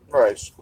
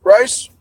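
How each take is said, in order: First: Said in the usual way. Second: High, rising surprised "Rice?"; puzzled question. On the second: Real, not acted. Streamer reading an odd cookie word, surprised rise. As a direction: ask "Rice?" in disbelief, pitch shooting up.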